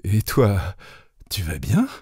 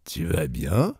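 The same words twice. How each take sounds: First: Mildly hesitant, halting question; a touch of flustered hesitation; stammered. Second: Softly spoken, unruffled question; calm character voice; tranquil. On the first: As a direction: return the question uncertainly, with a pause. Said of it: "je balbutiai". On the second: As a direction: ask it quietly, without any hurry. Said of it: "d'une voix tranquille". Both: A narrator's reading.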